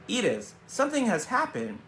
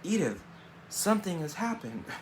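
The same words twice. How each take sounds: First: It is read in a normal, strong voice. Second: It is read in a weak, faint voice. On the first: The speaker calls it wrong. "I should have read it differently" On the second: The speaker calls it right. "if it was a weak voice, I should have read it differently, so I'll read it differently"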